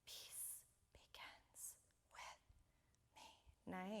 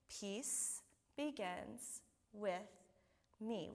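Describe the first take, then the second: First: It is whispered. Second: It is spoken in a normal voice.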